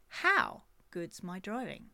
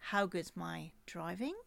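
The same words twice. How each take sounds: First: The stress falls on the word how. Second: The stress falls on the word driving.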